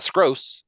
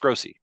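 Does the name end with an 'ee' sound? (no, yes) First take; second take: no; yes. First: The name ends without a final 'ee' sound. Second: The name ends with a final 'ee' sound. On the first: The speaker calls it wrong. "it's not Scrose" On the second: The speaker calls it right. "it's Scrosey"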